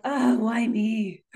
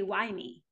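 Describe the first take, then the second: First: Slow, sulky self-pity; a drawn-out pouty sigh of a question. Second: Softer, earnest wondering; quiet and open, looking for purpose; sincere. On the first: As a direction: whine it like poor, poor me. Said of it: "in kind of a pouty way". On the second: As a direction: ask it as a real question, not a complaint. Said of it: "Or we can say". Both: Shown as a demonstration.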